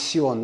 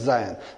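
First: The word begins with an s sound. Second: The word begins with a z sound. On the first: The speaker calls it right. "I purposely removed Z and put S because the correct pronunciation is Sion" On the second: The speaker calls it wrong. "not Zion"

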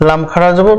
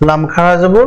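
The two takes are said the same way.

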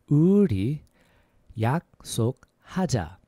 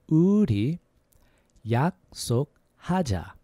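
The two takes are said the same way.

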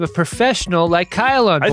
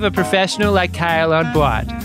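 First: It is said in a plain, everyday accent. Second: It is said in a Boston accent.

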